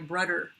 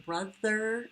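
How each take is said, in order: First: The middle consonant is a D sound. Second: The middle consonant is a voiced TH sound. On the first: The speaker calls it wrong. "a lot of kids use the D sound" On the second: The speaker calls it right. "You just say it correctly"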